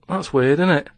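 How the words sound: It is said in a strong regional accent. This is how the thought really sounded. "I actually think in my accent"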